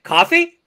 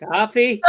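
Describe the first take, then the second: First: Much higher, louder, rising "Coffee?"; bright coffee. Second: Doubtful coffee. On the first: Teacher showing the wrong, too-eager echo. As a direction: ask "Coffee?" brightly, delighted. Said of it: "Now, it's not like". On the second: Teacher showing the reluctant echo, doubtful coffee. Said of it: "It was like". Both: Shown as a demonstration.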